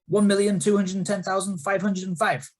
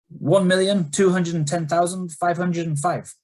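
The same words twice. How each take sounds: First: It is said at a faster pace. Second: It is said at a slower pace.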